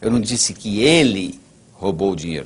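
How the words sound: The stress is on "ele".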